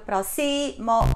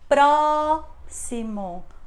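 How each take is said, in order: First: The stress falls on a later syllable. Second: The stress falls on the first syllable. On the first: The speaker calls it wrong. "Não funciona" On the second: The speaker calls it right. "a sílaba que é pronunciada com mais intensidade é a primeira"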